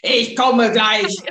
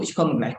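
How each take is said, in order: First: It is said in an angry, loud tone. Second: It is said in a gentle, calm tone.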